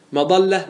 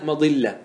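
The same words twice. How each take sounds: First: مضلة said "madalla", with an a; fatha form. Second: مضلة said "madilla", with an i; kasra form. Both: Shown as a demonstration. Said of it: "ما ورد بالوجهين".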